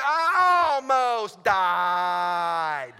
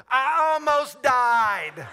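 First: Hugely drawn-out, very loud wail; exaggerated repeated yell. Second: Very loud, high, stretched outburst; hammed-up yell. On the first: Pilot answering his instructor's baffled question, long exaggerated yell. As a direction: bellow it, stretching every word to the limit. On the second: Pilot phoning his instructor after landing, hammed-up yell.

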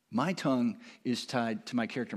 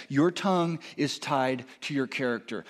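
First: "my" leaned on each time, the rest soft; stress on MY. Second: Said in the usual way. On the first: Shown as a demonstration. Pastor stresses "my" to own the point. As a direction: hit "my" to make it personal.

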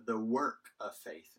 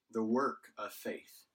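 First: Said in the usual way. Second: Slow, weighty stress on "work" after a pause. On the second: Shown as a demonstration. Preacher repeating the phrase to the church with slow stress on "work". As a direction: lean into "work", drawing out "the work of faith". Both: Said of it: "this is what he's thankful for".

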